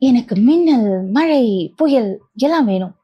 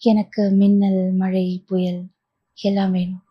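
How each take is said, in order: First: The line is spoken in a dreamy, playful manner. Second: The line is spoken in a plain, ordinary manner. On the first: "அந்த படத்துல பேசின மாதிரி" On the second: "நார்மலாகவும் பேசலாம்"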